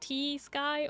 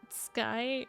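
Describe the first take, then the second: First: The T sound is pronounced before sky. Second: The T sound is silent before sky.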